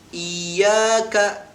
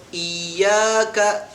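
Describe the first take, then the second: First: The first vowel is drawn out long. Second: The first vowel is drawn out long.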